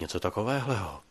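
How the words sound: The voice is soft and intimate. The speaker is sharing something in confidence. "jakoby důvěrně"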